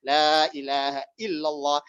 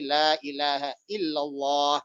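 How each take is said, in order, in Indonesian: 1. Vokal panjangnya dipanjangkan. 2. Vokal panjangnya dipanjangkan.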